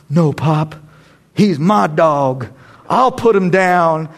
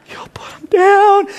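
First: Put-on slow, drawn-out line of a tough film boy; film character. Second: High, squeaky, choked-up mock crying; mock tearing up. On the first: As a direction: say it slowly, holding back the tears. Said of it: "you know, that guy says". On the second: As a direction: squeeze it out slowly as if fighting tears. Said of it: "you were tearing up a little bit".

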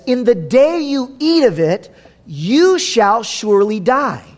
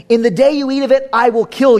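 First: Gentle warning. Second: Threatening vengeful God. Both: Shown as a demonstration. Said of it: "Do you hear the difference?".

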